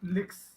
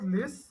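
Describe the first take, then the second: First: The k sound is clearly pronounced in the word. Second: The k sound is dropped from the word. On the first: The speaker calls it right. "but it's licks" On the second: The speaker calls it wrong. "it's not lis"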